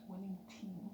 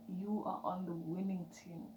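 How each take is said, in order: First: Soft unvoiced whisper of "Winning team"; whispered echo. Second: Said in the usual way. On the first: Real, not acted. Whispered repeat of affirmation.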